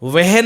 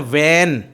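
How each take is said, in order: First: An h sound is pronounced in the middle. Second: No h sound is pronounced in it. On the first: The speaker calls it wrong. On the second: The speaker calls it right.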